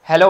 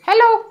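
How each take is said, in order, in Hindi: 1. यह भारी, गहरी आवाज़ में बोला गया है। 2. यह पतली, ऊँची आवाज़ में बोला गया है। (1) "एक लड़का बोलता है" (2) "लड़की की आवाज आ गई तो पतली सी आई"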